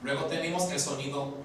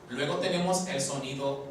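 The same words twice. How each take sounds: The two takes are said the same way.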